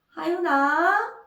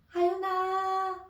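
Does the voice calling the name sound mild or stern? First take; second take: stern; mild. First: The name is called in a sterner, warning tone. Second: The name is called in a mild, gentle tone. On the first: Mom already told you once; stop that song. "라는 말을 이름의 억양, 높낮이로 또 전달을 하는 거예요" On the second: Mom is uncomfortable; please stop that song now. "엄마 불편해. 이제 그 노래 그만해. 하는 언어였더라고요"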